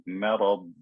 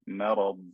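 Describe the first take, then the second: Both takes have the same delivery.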